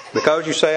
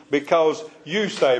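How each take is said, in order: First: Said in the usual way. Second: Slow, with weight on "you"; emphatic YOU. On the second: Shown as a demonstration. Bible teacher stresses to the class whom the verse addresses, emphatic "you". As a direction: lean on "you" and draw the phrase out. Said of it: "he is emphatically talking to the church".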